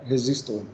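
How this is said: It is pronounced the English way. "a gente fala resistor em inglês"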